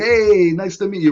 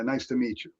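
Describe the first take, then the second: First: The greeting sounds lively and flamboyant. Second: The greeting sounds flat and unenthusiastic.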